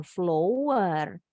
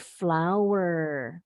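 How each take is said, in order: First: Flower read as written, with an OH vowel, flo-wer; the mistaken reading flower as FLOH-wer; wrong spelling pronunciation. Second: Flower with an OW vowel as in now; slow, clear flower said FLOW-er rhyming with power; correct pronunciation. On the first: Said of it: "tapi bacanya bukan flower". (flower dibaca salah sesuai tulisan, flo-wer) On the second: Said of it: "tapi flower". (flower diucapkan benar, fla-wer, pelan) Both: Shown as a demonstration.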